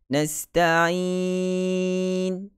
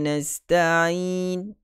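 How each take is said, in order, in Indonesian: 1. Vokal panjang itu ditahan selama empat harakat. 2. Vokal panjang itu ditahan selama dua harakat. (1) "Empat harakat" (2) "Dua harakat"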